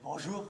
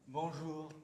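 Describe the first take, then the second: First: It sounds dismissive, like saying goodbye. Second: It sounds caring, as if to someone ill.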